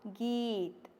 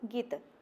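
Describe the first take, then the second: First: The vowel is held long. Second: The vowel is clipped short. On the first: "इसलिए यहाँ पर बड़ा ई है" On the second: "अगर यहाँ पर छोटा ई होता तो"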